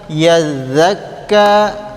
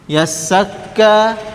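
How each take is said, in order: First: The middle consonant is a voiced th sound. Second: The middle consonant is a hissing s sound. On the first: "jangan sampai dibaca seperti huruf dzal" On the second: "jangan sampai dibaca seperti huruf sin"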